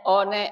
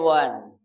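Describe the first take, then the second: First: It is read letter by letter, like 'o-ne'. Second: It is said the English way, like 'wan'. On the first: "tulisannya one" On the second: "bacanya one"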